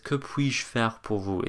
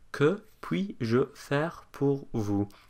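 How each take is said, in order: First: It is said smoothly at a natural pace. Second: It is said slowly, word by word. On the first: The speaker calls it right. "It's very fluid" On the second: The speaker calls it wrong. "Which no one speaks like that"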